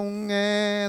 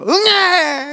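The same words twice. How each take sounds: First: The cry is said in a low voice. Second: The cry is said in an angry way. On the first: The baby wants to be held. "낮은 목소리로" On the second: The baby is sleepy. "화난 듯이 울어요"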